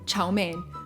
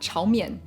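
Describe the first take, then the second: First: It is said with an English pronunciation. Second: It is said with a Mandarin pronunciation. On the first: "the English Chow Mein" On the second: "the Mandarin Chao Mian"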